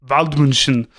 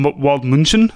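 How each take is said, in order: First: Waldmünchen with a German V, VALD-mun-shen, falling; German-style name. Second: Waldmünchen with an English W, ending in a questioning rise; Waldmünchen said wald-MOON-shen, tentative; unsure place name. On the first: Repeating the co-host's German pronunciation of the town. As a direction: echo the German sound of Waldmünchen. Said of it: "a federal police spokesman based in Waldmünchen". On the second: Asking his co-host how to say the town. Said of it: "can you say". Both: Shown as a demonstration.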